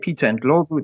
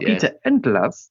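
First: The name is said in a local African way. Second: The name is said in an anglicized way. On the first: A British audience would not recognize the name. "they'll have no idea who this guy is" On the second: A British audience would recognize the name. "people will know it's the former Coventry City striker"

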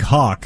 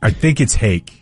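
First: The vowel sounds like 'aw' in 'hawk'. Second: The vowel sounds like 'ay' in 'make'. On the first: This is how the spelling suggests reading it. "It looks like Hawk" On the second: This is how the bearer says the name. "I think it's Hake"

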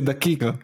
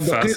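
First: It is said with a k, rural Palestinian style. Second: It is said the Iraqi way.

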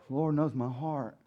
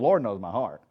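First: It is said sincerely, as heartfelt praise. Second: It is said defensively, as a self-justifying excuse. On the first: God truly sees and knows one's inner self. "we don't never say that like" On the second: One is excusing one's behavior against criticism. "We say it in the justification of something we're doing because you're judging"

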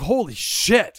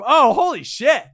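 First: It sounds shocked and horrified. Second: It sounds gleeful and cheering.

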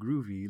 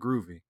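First: The word is said in a mocking hipster manner. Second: The word is said in a plain, sincere manner. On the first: The word is used as a clichéd hipster expression. "oh, hey, man, groovy, like I'm some kind of one of those guys" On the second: The music genuinely has a groove. "I'm not using that in a hipstery"

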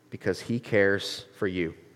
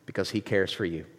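First: It is read very slowly. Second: It is read at a normal speed.

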